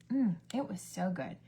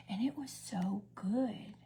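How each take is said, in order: First: Said in the usual way. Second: Slow breathy unvoiced whisper; savoring whisper. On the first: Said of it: "repeat in usual voice". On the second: Real, not acted. Praising the chicken dish, slow savoring whisper. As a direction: whisper it slowly like tasting it. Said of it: "savoring the food".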